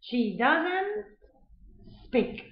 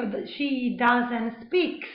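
First: "speak" ending cleanly on k, no s; "speak" without any s at the end; correct bare verb. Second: "speak" said with an added s, as "speaks"; "speak" turned into "speaks"; wrong -s ending. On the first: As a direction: slowly model it right, a pause before "speak". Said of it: "Yo no digo". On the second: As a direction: slowly model the mistake, ending "speak" in a clear s. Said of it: "eso sería un error". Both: Shown as a demonstration.

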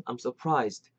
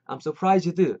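First: Surprised ending in a light "st"; light final st. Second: Surprised ending in a voiced "zeu-deu"; full ending. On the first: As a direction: finish surprised on unvoiced st, no vowel. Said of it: "약간 이렇게 스트". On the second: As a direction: add vowels to the final sounds of surprised. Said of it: "맞지만". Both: Shown as a demonstration.

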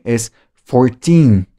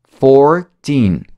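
First: Fourteen, said slowly with even weight; wrong stress. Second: Put-on fourteen with a long Four, er before teen; correct stress. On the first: Teacher showing a mistaken fourteen. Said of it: "No es fourteen". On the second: Teacher showing the right fourteen. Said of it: "Four, er, er, er". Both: Shown as a demonstration.

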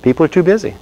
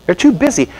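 First: Said in the usual way. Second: Too pitched much higher and punched; stress on too. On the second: Shown as a demonstration. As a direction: lean hard on the word too.

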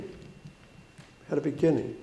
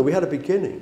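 First: Repeated softly; quiet echo. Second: Said in the usual way. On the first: Shown as a demonstration. Preacher to friends, a soft quiet echo. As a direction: let it sink in quietly. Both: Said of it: "repeated softer".

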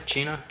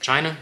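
First: China said as "Chee-na", with a questioning lift; alternate pronunciation. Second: Said in the usual way. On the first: Shown as a demonstration. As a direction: say China with an "ee" in the first syllable. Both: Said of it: "How do you".

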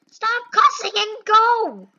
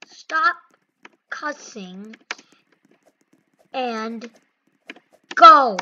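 First: High-pitched, fed-up order; exasperated scolding. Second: Word-by-word order. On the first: Gamer to cussing player holding up the line, exasperated scolding. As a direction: scold them in one exasperated run. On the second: Gamer to cussing player, order given word by word. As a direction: space out every word, then punch go. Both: Real, not acted.

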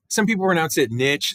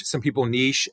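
First: NICHE said to rhyme with "itch"; niche with a short vowel, like "nitch"; pronunciation variant. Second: NICHE said to rhyme with "leash"; niche the French way, like "neesh"; pronunciation variant. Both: Shown as a demonstration. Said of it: "how you like to pronounce it".

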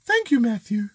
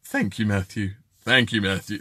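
First: High mock-lady voice; female voice attempt. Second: Low-pitched mock lady; female voice attempt. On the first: Host asking Karen which is closest, high female voice attempt. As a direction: pitch it up like a man faking a woman. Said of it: "I can't do a female voice". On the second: Host offering Karen another version, low-pitched female impression. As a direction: drop the put-on lady voice right down. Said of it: "which is the closest".

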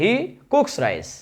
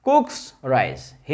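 First: Teacher modelling he cooks rice very slowly; very slow model. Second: Said in the usual way. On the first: Shown as a demonstration. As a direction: stretch out "he cooks rice" word by word. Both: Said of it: "দেখো এখানে খেয়াল করো".

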